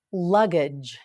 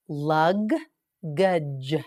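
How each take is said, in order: First: Said in the usual way. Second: "Lug-gage" split into two slow beats; "Lug-gage" stretched and split for learners; slow, syllable by syllable. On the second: Shown as a demonstration. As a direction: break "Lug-gage" apart slowly, teacher style.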